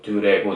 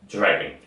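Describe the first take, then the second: First: It is said with Korean-style syllables and vowels. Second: It is said with native-like English sounds. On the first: The speaker calls it wrong. "이게 아니라" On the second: The speaker calls it right. "이런 식으로 소리 내는 거죠"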